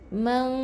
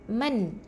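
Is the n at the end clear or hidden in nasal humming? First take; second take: hidden; clear. First: The n is hidden in a nasal hum. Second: The n is fully pronounced with the tongue touching. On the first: The speaker calls it right. "jangan bunyikan nun tu" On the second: The speaker calls it wrong. "kalau kita bersentuh, maksudnya kita sebut dengan nun"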